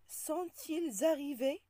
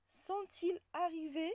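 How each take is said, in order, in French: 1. La consonne finale se lie au mot suivant. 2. Les mots restent séparés, sans consonne de liaison. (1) "On ne dit pas" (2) "On dit"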